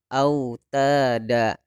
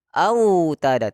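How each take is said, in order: First: The 'au' sound is said softly and smoothly. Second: The 'au' sound is pushed out hard. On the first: The speaker calls it right. "Layyin itu lembut" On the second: The speaker calls it wrong. "kita gas ... tidak boleh"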